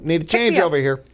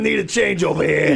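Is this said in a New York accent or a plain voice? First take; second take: plain voice; New York. First: It is said in an ordinary voice. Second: It is said in a New York accent.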